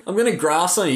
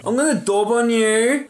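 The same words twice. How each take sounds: First: Said in the usual way. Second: High, mock-childish taunt; ten-year-old tattler. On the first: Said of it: "You can't even say it like that". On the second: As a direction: threaten to tell like a little kid. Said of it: "dobbed is like a ten-year-old word".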